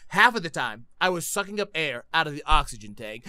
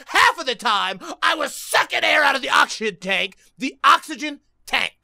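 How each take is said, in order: First: Said in the usual way. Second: Agitated, higher-pitched rant; worked up. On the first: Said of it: "I'm getting too worked up". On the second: Real, not acted. Player explaining the failed button spamming, worked up. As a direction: get flustered and force the words out. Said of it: "I'm getting too worked up, I can't talk".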